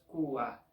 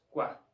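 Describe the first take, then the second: First: The sounds are split into two syllables. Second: The sounds are joined into one syllable. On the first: The speaker calls it wrong. "no es qua" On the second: The speaker calls it right. "en una única sílaba, en un único sonido"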